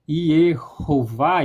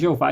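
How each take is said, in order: First: It is said the Hebrew way, starting with Y. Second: It is said the Portuguese way, without the H sounds. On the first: "em hebraico" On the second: "Em português"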